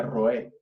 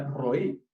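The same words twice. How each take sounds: First: "roé" said slowly, stressed on the final é; Hebrew pronunciation. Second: "roí" said slowly with stress on the final í; teacher models "roí" as "mi pastor"; Hebrew pronunciation. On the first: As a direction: spell out "roé" carefully, rolled r then ro-É. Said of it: "que se pronuncia". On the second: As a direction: carefully sound out "roí", ending on a stressed í. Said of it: "sería roí". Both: Shown as a demonstration.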